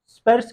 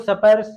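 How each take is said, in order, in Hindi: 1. स और प के बीच कोई स्वर नहीं आता। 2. स और प के बीच एक छोटा स्वर डाला जाता है। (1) "जिसमें स हलंत है, आधा स है" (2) "अनावश्यक रूप में स्वर योग करा देते हैं"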